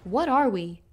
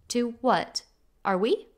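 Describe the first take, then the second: First: It is said as one phrase without a pause. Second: There is a pause after the word 'what'. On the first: It asks what kind of beings we are. "from the question" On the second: It asks whether we are the things just listed. "That comma changes the phrase"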